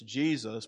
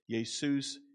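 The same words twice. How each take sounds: First: The name is pronounced the usual English way. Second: The name is pronounced the Greek way. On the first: "you pronounce that in English" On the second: "I'm going to pronounce it in the Greek"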